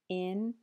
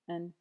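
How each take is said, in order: First: The word has a full, clear vowel. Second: The word has a weak schwa vowel.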